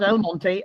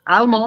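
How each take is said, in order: First: The name is said with three syllables. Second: The name is said with two syllables. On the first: The speaker calls it wrong. "not Almonte" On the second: The speaker calls it right. "Almont, okay"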